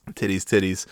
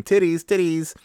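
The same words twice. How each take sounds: First: Said in the usual way. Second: High-pitched mock kid chant, not full volume; imitated kids' yelling. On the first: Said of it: "they're just yelling about titties". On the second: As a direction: mimic excited children calling out. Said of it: "both of the kids are yelling".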